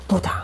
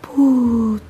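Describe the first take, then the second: First: It is said in an angry tone. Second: It is said in a very sad tone.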